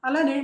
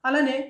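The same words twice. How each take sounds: Both takes have the same delivery.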